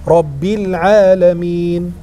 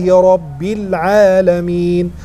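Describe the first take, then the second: The two takes are said the same way.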